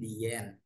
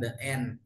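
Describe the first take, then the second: First: The word 'the' is said as 'thee'. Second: The word 'the' is said as 'thuh'. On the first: The speaker calls it right. "tapi the end" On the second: The speaker calls it wrong. "ini bukan the end"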